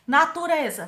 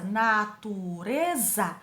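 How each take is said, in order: First: Said in the usual way. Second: "natureza" very slowly split into na, tu, re, za; syllable by syllable. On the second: Shown as a demonstration. Teacher counting four syllables, syllable by syllable. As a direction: say "natureza" in four drawn-out beats. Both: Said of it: "quatro sílabas".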